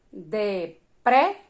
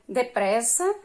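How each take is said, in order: First: "depressa" slowly split, de-PRES-sa, PRES loud; syllable by syllable. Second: Said in the usual way. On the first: Shown as a demonstration. Teacher sounding out syllables for children, "depressa" slow and segmented. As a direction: break "depressa" into beats and lift PRES.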